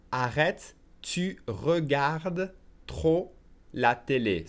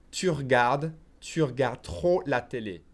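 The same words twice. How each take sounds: First: Very slow French, pausing between chunks; slow repeat. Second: "regardes" shortened to "r'gard"; skipped E at normal pace. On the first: Teacher says it again for learners, slowly. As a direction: stretch out "tu regardes trop", every syllable clear. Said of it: "I'll say it slowly again". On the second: Teacher says it at normal pace, "regardes" as "r'gard". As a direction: run "Tu regardes" into "tur-gard". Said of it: "I will skip the E here". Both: Shown as a demonstration.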